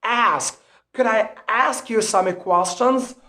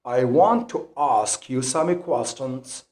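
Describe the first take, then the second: First: Higher American "ask" with the A of cat; American front A in "ask"; American accent. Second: Slow, lower British line, broad A in "ask"; British "ask" with the A of father; British accent. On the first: Teacher giving learners an example question, American accent. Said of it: "difference between the American accent and the British accent". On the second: Teacher giving learners an example sentence, British accent. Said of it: "the British accent when you pronounce these two words". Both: Shown as a demonstration.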